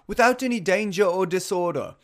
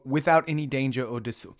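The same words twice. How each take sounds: First: It is said in a put-on British accent. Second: It is said in the speaker's usual accent.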